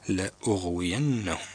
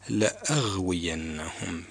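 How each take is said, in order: First: The glottal stop carries a u vowel. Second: The glottal stop carries an a vowel. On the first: The speaker calls it right. "إنما هي مضمومة لأغوينهم" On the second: The speaker calls it wrong. "البعض يقرأها خطأ لأغوينهم بالفتح"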